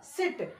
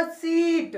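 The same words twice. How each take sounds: First: "सिट" with a very brief i; short sound. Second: "सीट" with a long, stretched-out ee; long sound. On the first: Teacher contrasting with the long sound, "सिट" kept short. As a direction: close "सिट" off right away. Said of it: "short एकदम छोटा सा लिया". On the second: Teacher showing the long sound, "सीट" drawn out. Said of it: "अब इसको हमने लंबा खींचा है". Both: Shown as a demonstration.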